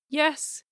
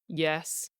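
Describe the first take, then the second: First: The word is said on a high pitch. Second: The word is said on a low pitch. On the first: "a high" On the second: "a low"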